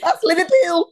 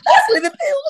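First: High mock Scouse accent; playful imitation of a Liverpool accent. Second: Very high, loud mock Scouse; exaggerated Liverpool accent, right up high. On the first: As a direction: put on Liverpool, pitched high.

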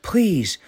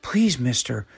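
First: Desperate plea. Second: Pleading. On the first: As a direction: cry out the second "please" high and urgent. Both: A narrator's reading. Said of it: "he pleaded".

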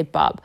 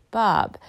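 First: "Bob" said short and quick; quick "Bob", no stretch on the vowel; really fast. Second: "Bob" with a long, drawn-out O; slow, lengthened "Bob"; stretched out. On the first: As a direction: rush through "Bob". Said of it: "like, really fast". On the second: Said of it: "where you stretch out the O". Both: Shown as a demonstration.

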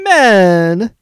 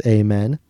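First: High, loud, drawn-out mock shout; Johnny Horn. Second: Said in the usual way. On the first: Host taking a turn at a character's random shout, high drawn-out yell. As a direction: holler it out, stretching the first vowel. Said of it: "Johnny Horn randomly shouts". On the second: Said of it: "Bopper also yells".

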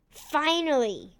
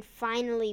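First: Finally! punched with villain glee; emphatic exclamation. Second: Said in the usual way. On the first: Acted.

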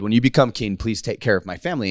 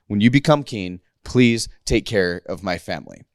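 First: Said in the usual way. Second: Low, measured plea with spaced-out words. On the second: Retold or imitated. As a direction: separate "please", "take care" and "of my family" deliberately. Jonathan insists after David objects.

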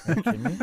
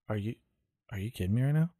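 First: High, loud, exasperated; incredulous angry outburst. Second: Said in the usual way. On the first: Retold or imitated. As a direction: shout it in disbelief. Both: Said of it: "he was like".

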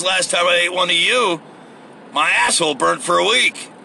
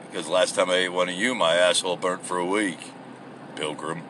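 First: Said in the usual way. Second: Low, soft cowboy voice, quickly delivered; mock cowboy. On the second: Crocodile answering the prisoner as a cowboy, low mock cowboy voice. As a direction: drop way down into a hushed cowboy impression.

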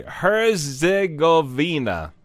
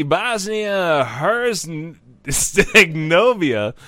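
First: Herzegovina said again slowly, with a long z and a clean hair-zeh-go-vee-na; retry Herzegovina slowly and carefully; slow corrected Herzegovina; corrected pronunciation. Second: Herzegovina dragged out slowly, syllable by syllable; careful slow Herzegovina, stumbling on the middle; struggling pronunciation. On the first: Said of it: "I'm sorry". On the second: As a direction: sound out Herzegovina slowly and unsure. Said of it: "big old trampoline word". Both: Shown as a demonstration.

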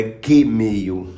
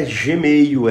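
First: Gmail said "guê-meio"; hard G. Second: Gmail said "zhê-meio"; soft G. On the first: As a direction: start Gmail with a hard g as in "get". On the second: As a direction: slowly show Gmail with a soft zh start. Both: Shown as a demonstration. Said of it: "A pronúncia do G é G".

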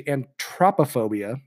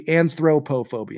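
First: Anthropophobia with a T, "an-TROP-a-phobia"; pronounced as heard. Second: Anthropophobia with TH, "an-throh-poh-phobia"; spelling pronunciation. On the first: Host showing the pronunciation they listened to, anthropophobia with a plain T. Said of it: "I listened to a pronunciation of it". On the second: Host showing how it looks on paper, anthropophobia with TH and long O's. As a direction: sound out anthropophobia as written, with TH and full O's. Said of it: "It looks like it should be". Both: Shown as a demonstration.

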